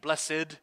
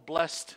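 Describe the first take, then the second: First: The word is said as two syllables. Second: The word is said as one syllable. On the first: "blessed, two syllables" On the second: "one syllable blessed"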